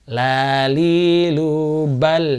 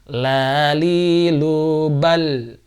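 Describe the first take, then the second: The two takes are said the same way.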